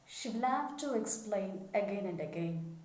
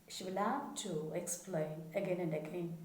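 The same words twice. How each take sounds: The two takes are said the same way.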